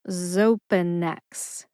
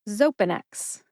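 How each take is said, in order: First: The word is said slowly, syllable by syllable. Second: The word is said at a normal conversational speed.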